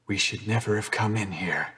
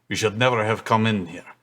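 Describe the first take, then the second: First: It is spoken in the speaker's ordinary accent. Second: It is spoken in a put-on Russian accent.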